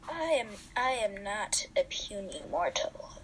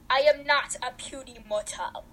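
First: It is said in a put-on character voice. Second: It is said in the speaker's normal voice. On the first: The speaker calls it right. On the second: The speaker calls it wrong.

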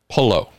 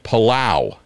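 First: The name ends in a plain 'oh' sound. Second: The name ends in an 'ow' glide sound. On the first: "That's how he pronounces his name" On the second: "a very heavy W inserted"

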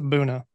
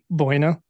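First: The word is said in its local pronunciation. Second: The word is said the way it is spelled. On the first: The speaker calls it right. "but you pronounce it Buena" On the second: The speaker calls it wrong. "It's spelled Buena"

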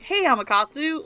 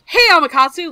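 First: It is said slowly and laid-back. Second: It is said fast and energetically.

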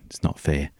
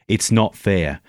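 First: It is said sheepishly and timidly. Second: It is said firmly, with real meaning.

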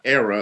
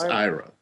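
First: The name begins with an 'air' sound. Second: The name begins with an 'eye' sound. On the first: The speaker calls it wrong. "She says it's not era" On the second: The speaker calls it right. "it's Ira"

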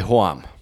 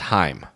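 First: The vowel is a drawn-out 'oa' glide. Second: The vowel is a standard 'ai' sound. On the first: "Bavarians will say Hoam" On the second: "standard German, the word for home is Heim"

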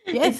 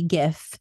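First: The word starts with a soft j sound. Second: The word starts with a hard g sound. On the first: "like the peanut butter girl" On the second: "If there was a T at the end, it would be GIF"

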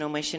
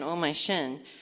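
First: The phrase is said at a fast pace. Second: The phrase is said at a slow pace. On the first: "And so then I just started saying that fast" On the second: "It also sounded like"

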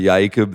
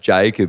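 First: The name begins with a Y sound. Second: The name begins with a J sound. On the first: "you're Jacob there" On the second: "like if your name's Jacob"

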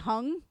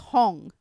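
First: The vowel sounds like the one in 'hung'. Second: The vowel sounds like the one in 'hong'. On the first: The speaker calls it wrong. "You've been hearing me say hung" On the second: The speaker calls it right. "It's Hong, like Hong Cha"

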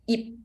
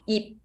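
First: The final p is soft and unreleased. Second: The final p is soft and unreleased.

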